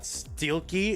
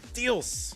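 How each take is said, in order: First: The name ends with a key sound. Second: The name ends with an s sound. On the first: The speaker calls it wrong. "It's not" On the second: The speaker calls it right. "It's Steels. And don't you forget it"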